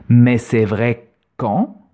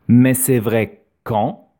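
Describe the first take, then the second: Both takes have the same delivery.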